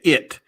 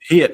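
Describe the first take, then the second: First: The word begins with no h sound. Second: The word begins with a clear h sound. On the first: "He said it" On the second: "so he don't say sh- hit"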